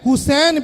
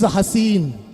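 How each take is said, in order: First: The first vowel is a 'u' sound. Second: The first vowel is an 'a' sound. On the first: The speaker calls it right. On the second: The speaker calls it wrong.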